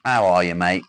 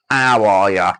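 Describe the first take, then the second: First: Said in the usual way. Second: A rough English impression, belted out; Wes. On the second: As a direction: lightly mimic a mate's loud, stretched hello. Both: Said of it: "I said that like Wes then".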